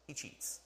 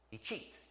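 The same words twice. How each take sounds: First: Whispered "He cheats." in a stage aside; a conspiratorial whispered aside. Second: Said in the usual way. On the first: Shown as a demonstration. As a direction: hush it like a secret. Repeating he cheats variously.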